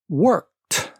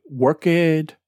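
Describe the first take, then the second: First: Worked with the ed as a t, one syllable; correct pronunciation. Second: Worked said as "work-id" with an extra syllable; wrong pronunciation. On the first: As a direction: say "worked" like "workt". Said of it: "the E D ending sounds like a t". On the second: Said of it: "If you say". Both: Shown as a demonstration.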